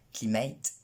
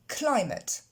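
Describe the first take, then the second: First: Climate as klimɛit, stress moved to end; imitating French climate; French-style climate. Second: Climate slow x0.5, stress on cly, ending ut; stress on first syllable. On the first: Teacher mocks the French mangling of climate. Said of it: "les Français qui disent". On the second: Shown as a demonstration. Teacher gives the right climate after the wrong one. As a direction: climate as klaɪmət, first beat strong. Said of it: "L'accent tonique tombe sur la première syllabe".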